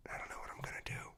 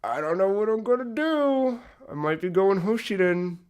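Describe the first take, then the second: First: Fast hushed whisper; a quick secret whisper. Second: Pitched up, fretting aloud; higher, playfully torn voice; a light mock-anxious wail; mock dithering. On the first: Real, not acted. Hushed confession about chapter six. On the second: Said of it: "made me go".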